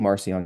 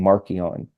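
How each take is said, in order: First: The name is said the English way. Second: The name is said the ancient way. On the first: "that's how you say it in English" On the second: "in the languages they would speak at the time, it would have been Markion"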